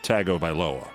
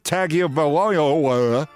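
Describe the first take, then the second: First: The name is said in its standard form. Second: The name is mangled in a mocking imitation. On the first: It is the name's usual pronunciation. The speaker calls it right. "And I know it's Tagovailoa" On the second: It mimics another person's mispronunciation. The speaker calls it wrong. "I was just doing a Trump pronunciation of Tagovailoa"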